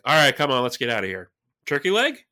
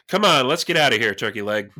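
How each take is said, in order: First: Turkey leg is asked as a rising question. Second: Turkey leg falls, said like a name.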